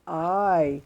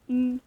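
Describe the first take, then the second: First: The vowel sounds like the letter's name. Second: The vowel sounds like the letter's phonics sound. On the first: The speaker calls it wrong. "syempre po hindi I" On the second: The speaker calls it right. "kundi I"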